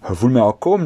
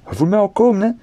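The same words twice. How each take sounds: First: Said in the usual way. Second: Much higher, playful and teasing; high teasing repeat. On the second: Shown as a demonstration. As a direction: tease them with a rising, knowing voice. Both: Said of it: "teasing repeat".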